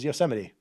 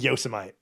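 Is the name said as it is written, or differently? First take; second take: differently; as written. First: It is said unlike how it looks written. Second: It is said just as it looks written. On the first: The speaker calls it right. "I learned then and there that it was Yosemite. Uh, not how it looks" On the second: The speaker calls it wrong. "It looks like Yosemite"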